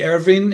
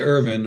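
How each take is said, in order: First: The name is said the Hungarian way. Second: The name is said the English way. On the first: This is how people in the home country say it. "the Hungarians say Ervin" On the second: This is how the family says it now. "I say Irvin"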